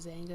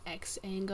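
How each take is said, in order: First: The word begins with a plain z sound. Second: The word begins with the letter name ex. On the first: The speaker calls it right. "Zanga is the correct way to say it" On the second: The speaker calls it wrong. "She thought it was pronounced X-Anga"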